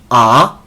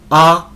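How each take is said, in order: First: It is said in the second tone, rising. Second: It is said in the first tone, high level.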